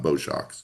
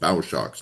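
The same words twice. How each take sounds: First: The word bow rhymes with go. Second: The word bow rhymes with cow. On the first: The speaker calls it wrong. "not bow shocks" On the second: The speaker calls it right. "properly called bow shocks"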